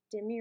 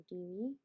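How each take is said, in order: First: "Demi" pronounced DIM-ee; short i in the first syllable of "Demi", DIM-ee; Demi with short vowel. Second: "Demi" pronounced DEE-mee; long ee in the first syllable of "Demi", DEE-mee; Demi with long vowel. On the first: Streamer asking which is preferred, "Demi" as DIM-ee. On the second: Streamer asking which is preferred, "Demi" as DEE-mee. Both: Shown as a demonstration. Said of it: "What do you prefer".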